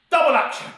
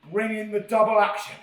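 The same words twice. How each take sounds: First: Loud emphatic Double action; emphatic catchphrase. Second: Said in the usual way. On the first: Shown as a demonstration. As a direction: Double action punched higher and louder. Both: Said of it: "emphasis on the word action".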